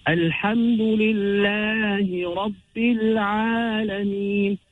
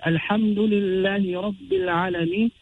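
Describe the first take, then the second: First: Long-held vowels in Alhamdulillahi Rabbil Alameen, slow; elongated recitation. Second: Alhamdulillahi Rabbil Alameen said with short vowels; unstretched recitation. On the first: Teacher showing how the Prophet recited, Alhamdulillahi Rabbil Alameen drawn out. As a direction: recite Alhamdulillahi Rabbil Alameen slowly, stretching every mad. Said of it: "the recitation was maddan".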